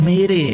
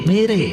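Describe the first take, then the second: Both takes have the same delivery.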